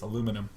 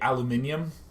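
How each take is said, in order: First: The word is said with four syllables. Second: The word is said with five syllables. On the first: This is the form the speaker uses. The speaker calls it right. "It's aluminum" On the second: This is how British speakers say it. The speaker calls it wrong. "the British folks say aluminium. It's so weird"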